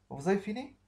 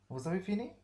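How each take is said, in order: First: High, loud question with a sharp rise; a bright, rising classroom question; questioning tune. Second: High question rising on fini; ask, lifting the voice at the end; a clear rising question; questioning tune. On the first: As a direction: ask it eagerly, rising at the end. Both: Shown as a demonstration. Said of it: "Je pose une question".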